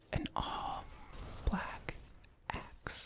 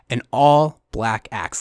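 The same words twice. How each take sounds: First: It is said in a soft ASMR whisper. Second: It is said in a normal voice.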